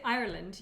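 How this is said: The word is said with two syllables. This is how Irish people say it. "we say Ireland as two syllables"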